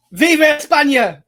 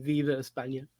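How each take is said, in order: First: Put-on loud, high [name] cheer in an Irish accent; shouted Spanish cheer. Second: Soft, low [name], half under breath; quiet [name]. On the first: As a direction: belt out [name] like a football chant. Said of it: "that didn't sound quite right in an Irish accent". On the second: Shown as a demonstration. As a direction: murmur [name] as a sign-off. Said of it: "end at me saying".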